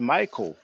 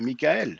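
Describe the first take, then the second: First: It is said with an American pronunciation. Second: It is said with a French pronunciation. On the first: "In America, you say" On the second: "In French, we say"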